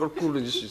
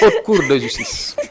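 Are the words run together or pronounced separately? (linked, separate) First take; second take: linked; separate. First: The words are run together without separation. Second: The words are detached and pronounced separately. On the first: The speaker calls it wrong. "j'avais dit haute cour de justice" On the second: The speaker calls it right. "dafay détacher les les les kii"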